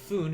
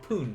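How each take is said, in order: First: The word begins with a soft f sound. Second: The word begins with a hard p sound. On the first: The speaker calls it wrong. "It's not going to be fun" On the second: The speaker calls it right. "it would be pun for a lot of these"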